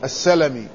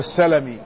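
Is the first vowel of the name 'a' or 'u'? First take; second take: a; a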